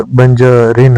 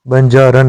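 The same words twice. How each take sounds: First: बंजारिन ending in -रिन; correct form. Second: बंजारन ending in -रन; wrong form. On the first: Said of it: "बंजारिन होता है". (सही उच्चारण बंजारिन, -रिन) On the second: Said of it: "बंजारन नहीं होता". (गलत उच्चारण बंजारन, -रन) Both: Shown as a demonstration.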